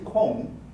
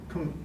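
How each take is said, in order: First: The syllable has a clear o vowel. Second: The syllable has no clear o vowel. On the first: "In Japanese" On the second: "There's no o in English"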